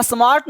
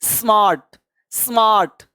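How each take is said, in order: First: "स्मार्ट" with an extra vowel in front, a-smart; mistaken pronunciation. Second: "स्मार्ट" starting straight on a hissed S; corrected pronunciation. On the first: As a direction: put an "अ" before the S of "स्मार्ट". ("स्मार्ट" को "अस्मार्ट" जैसा, गलत उच्चारण) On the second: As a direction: say "स्मार्ट" with no vowel before the S. ("स्मार्ट" सीधे स से, सही उच्चारण) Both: Shown as a demonstration. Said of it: "स्मार्ट नहीं".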